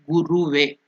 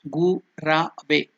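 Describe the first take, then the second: First: The middle vowel is pronounced as u. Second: The middle vowel is pronounced as a. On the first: The speaker calls it wrong. "It is not Guruve" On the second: The speaker calls it right. "It is Gurave"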